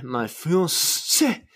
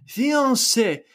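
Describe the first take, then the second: First: Fiancé drawn out very slowly, rising at the end; his usual fiancé. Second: Fiancé jumped up high and falling; fiancé said differently. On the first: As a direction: stretch out fiancé his own way, slow and rising. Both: Shown as a demonstration. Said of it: "I always say it like that".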